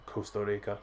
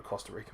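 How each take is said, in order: First: Soft stab at a Costa Rican accent, tapped R; attempted Costa Rican twang. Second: Said in the usual way. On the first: Shown as a demonstration. Host admiring a viewer's accent, attempted Costa Rican twang. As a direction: try Costa Rica with a local Spanish twang. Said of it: "I can't put the, the twang on it". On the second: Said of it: "the twang on it".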